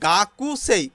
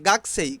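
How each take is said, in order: First: The vowel after the k is clearly heard. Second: The vowel after the k is dropped. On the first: "এখানে গাকুসেই কিন্তু" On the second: "জাপানিজরা উচ্চারণ করে গাকসেই"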